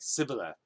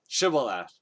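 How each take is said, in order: First: The word begins with a plain 's' sound. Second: The word begins with an 'sh' sound. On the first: The speaker is from the enemy group. "their accent is different, so they probably say it like" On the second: The speaker is one of the group. "pronounce this word"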